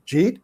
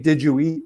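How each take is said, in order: First: "Jeet?" as one blended syllable, rising; Jersey slurred. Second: Said in the usual way. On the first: Shown as a demonstration. Showing how Jersey folks blend words, "Jeet?". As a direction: squash "Did you eat" into "Jeet?". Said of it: "we would say". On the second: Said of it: "instead of saying".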